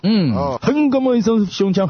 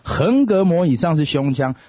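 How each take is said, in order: First: It is said with a mock Korean accent. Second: It is said in plain Mandarin.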